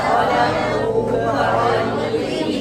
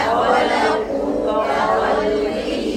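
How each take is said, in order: No difference in how they are said.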